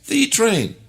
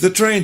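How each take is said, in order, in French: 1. Le mot 'the' a une voyelle longue 'ee'. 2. Le mot 'the' a une voyelle courte et réduite.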